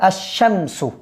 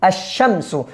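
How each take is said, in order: First: The L is dropped and the sh is doubled. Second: The L is dropped and the sh is doubled.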